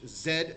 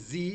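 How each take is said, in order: First: The letter is said the British way, zed. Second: The letter is said the American way, zee.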